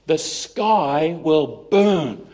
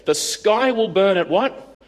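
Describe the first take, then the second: First: Each word drawn out slowly and far apart; "The sky will burn" spoken very slowly, like a doom prophecy; slow ominous reading. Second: "The sky will burn at what?" read slowly as a teasing question; slow lead-in with a rising quiz at the end; quizzing reading. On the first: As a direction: savour every word of the omen. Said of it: "Let me show you". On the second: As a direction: tease the audience to guess. First reading of the prophecy. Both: Shown as a demonstration.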